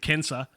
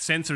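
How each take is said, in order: First: The word begins with a K sound. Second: The word begins with an S sound. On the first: This is the Latin way of saying it. "the C pronounced as K thing" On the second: This is the English way of saying it. "from an English perspective"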